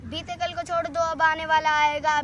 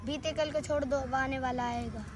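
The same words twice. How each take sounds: First: Firm rhythmic declamation; full-voiced recital. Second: Soft verse lead-in; hushed recital. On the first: Full-voiced repeat of verse. (पूरे स्वर में ओजस्वी पाठ) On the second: Acted. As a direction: recite it quietly, held back. Soft first take of verse. (धीमे स्वर में कविता)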